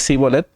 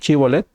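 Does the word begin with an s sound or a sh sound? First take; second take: s; sh. First: The word begins with a plain s sound. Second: The word begins with a sh sound. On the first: The speaker calls it wrong. "al no poderlo pronunciar y decir cibolet" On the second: The speaker calls it right. "di chibolet"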